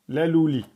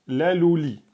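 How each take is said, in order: No difference in how they are said.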